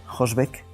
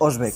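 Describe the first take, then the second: First: The word begins with an audible H sound. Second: The word begins directly with the vowel O. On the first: The speaker calls it wrong. "He dicho Hosbec, pero es" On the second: The speaker calls it right. "H no se pronuncia"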